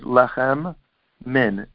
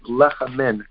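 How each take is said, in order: First: Two separate m sounds are said. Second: A single m joins lechem to min. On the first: The speaker calls it right. "There are two mems over there" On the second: The speaker calls it wrong. "we drop the mem"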